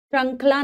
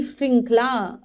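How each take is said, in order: First: "श्रृंखला" said as shrankhla, no I vowel; mispronounced word. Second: "श्रृंखला" with an RI, shring-khla; correct pronunciation. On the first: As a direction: say "श्रृंखला" wrongly with an A, shran-khla. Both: Shown as a demonstration. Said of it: "श्रृंखला नहीं".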